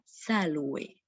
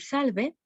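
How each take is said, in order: First: It is said with classical Latin pronunciation. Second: It is said with Spanish pronunciation. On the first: "en la versión clásica de la pronunciación se pronunciaría salve" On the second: "En español podemos decir salve"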